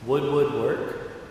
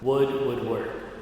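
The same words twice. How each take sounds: First: It is asked as a question, rising. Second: It is stated as an answer, falling.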